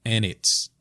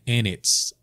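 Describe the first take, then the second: Both takes have the same delivery.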